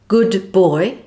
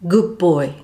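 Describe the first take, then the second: First: The final D is fully pronounced. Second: The final D is not sounded.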